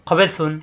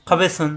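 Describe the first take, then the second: The two takes are said the same way.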